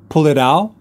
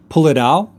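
No difference in how they are said.

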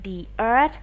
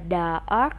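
First: The word 'the' is said as 'thee'. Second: The word 'the' is said as 'thuh'. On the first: The speaker calls it right. "tại sao cô lại kêu Thảo đọc là the earth" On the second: The speaker calls it wrong. "không phải là the earth"

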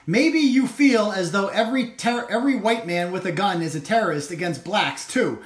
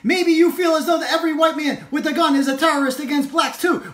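First: It is read in a plain voice. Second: It is read in a loud shouting voice.

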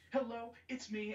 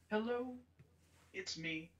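First: It is said fast and upbeat. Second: It is said slowly and softly.

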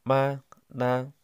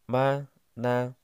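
Both takes have the same delivery.

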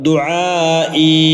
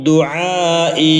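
The two takes are said the same way.

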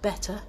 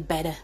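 First: The middle consonant sounds like a T. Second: The middle consonant sounds like a D. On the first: This is the standard way to say it. "instead of better" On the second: This is how northerners say it. "Northerners tend to make their T's into B's, into D's, I mean, so we say better"

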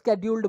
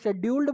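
First: The word begins with an 'sk' sound. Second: The word begins with an 'sh' sound. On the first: "या स्केड्यूल्ड बोलो" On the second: "शेड्यूल्ड बोलो"

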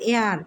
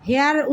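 First: The word starts with a vowel, no h. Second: The word starts with an audible h sound. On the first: The speaker calls it right. "এখানে হবে এয়ার" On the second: The speaker calls it wrong. "হেয়ার উচ্চারণ না করে"

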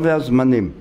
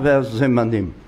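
First: No vowel is heard between z and m. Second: A short vowel is heard between z and m. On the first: The speaker calls it wrong. "לא והזמנים" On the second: The speaker calls it right. "יש שם דגש ושווה נע. לכן צריך לומר"

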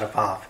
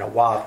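First: The word begins with a V sound. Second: The word begins with a W sound. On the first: The speaker calls it wrong. "not a Vav" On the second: The speaker calls it right. "That's what it was back then"

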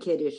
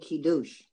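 First: The stress is on the first syllable. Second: The stress is on the last syllable. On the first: The speaker calls it wrong. "the word is not Kiddush" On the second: The speaker calls it right. "it's really Kiddush. ... It's on the last syllable"

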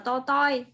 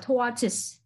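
First: The word ends without a final s sound. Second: The word ends with a clear final s sound. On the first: The speaker calls it wrong. "Ngày xưa học là to toi bởi vì cô không biết đọc" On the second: The speaker calls it right. "Mà đọc là tortoise"

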